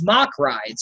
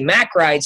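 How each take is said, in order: First: The name is said with a German pronunciation. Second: The name is said with an American pronunciation. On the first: "the way that it's pronounced over there is Mock rides uh, because, you know, German accent" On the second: "we like to say Mack rides here because we're, you know, Americans"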